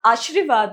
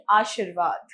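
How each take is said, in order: First: आशीर्वाद as 'aash-ri-vaad', r moved forward; mispronounced word. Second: आशीर्वाद as 'aa-sheer-vaad'; long shee before the r in आशीर्वाद; correct pronunciation. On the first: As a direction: put ri after sh in आशीर्वाद. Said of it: "नहीं". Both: Shown as a demonstration.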